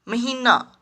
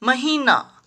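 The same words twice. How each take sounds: First: महीना with a short middle "i"; महीना said as महिना; mispronounced. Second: Said in the usual way. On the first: Shown as a demonstration. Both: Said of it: "महीना नहीं".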